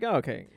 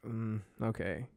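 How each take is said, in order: First: Lightly resigned okay, at normal volume; resigned agreement. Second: Slow, soft, half-hearted okay; reluctant agreement. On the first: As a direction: go along with it, mildly. Second take of retold agreement. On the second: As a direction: give in quietly, without enthusiasm. Retold reluctant agreement to play. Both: Retold or imitated.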